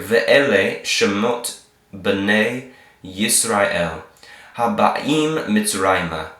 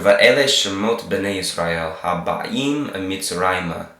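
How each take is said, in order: First: It is read slowly. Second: It is read fast.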